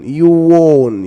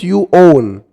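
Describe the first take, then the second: First: The two words are joined with a linking w. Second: The two words are said separately. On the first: The speaker calls it right. "try to make it like you won" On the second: The speaker calls it wrong. "It's not you own"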